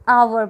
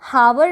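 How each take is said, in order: First: The word begins with a vowel sound. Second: The word begins with an h sound. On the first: The speaker calls it right. "इसको आप आवर बोलोगे" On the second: The speaker calls it wrong. "इसको आप हावर नहीं बोलोगे"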